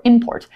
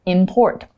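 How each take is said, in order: First: Import with the stress on IM; stress on first syllable. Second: Import with the stress on PORT; stress on second syllable. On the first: Teacher showing a word's other pronunciation, import stressed on IM. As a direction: say import as IM-port, punching the start. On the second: Teacher showing a word's first pronunciation, import stressed on PORT. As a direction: say import as im-PORT, weight on the end. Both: Shown as a demonstration. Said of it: "when we look at the word".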